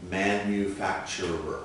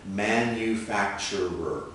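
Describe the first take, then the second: No difference in how they are said.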